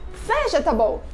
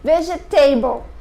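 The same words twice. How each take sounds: First: The stress falls on the first syllable. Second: The stress falls on a later syllable. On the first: The speaker calls it right. "o correto é vegetable" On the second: The speaker calls it wrong. "Vê se você nunca falou assim"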